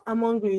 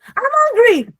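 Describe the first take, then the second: First: Soft, understated remark; just let someone know, softly; mild wishful telling. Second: High, loud uncaring demand; demanding shout. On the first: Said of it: "I'm telling someone I'm, I'm hungry". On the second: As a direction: shout it as if only you matter. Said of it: "I don't care about anybody here". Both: Shown as a demonstration.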